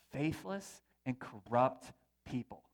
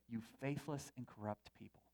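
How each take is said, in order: First: Slow, with "faithless" hit hard and dragged out; slow rebuke that leans hard on "faithless"; stern rebuke. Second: Much softer and lower, "faithless" pressed gently; hushed rebuke. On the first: Acted. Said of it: "Jesus says this". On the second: Retold or imitated. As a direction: murmur "faithless" as a stunned quote. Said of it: "voice say".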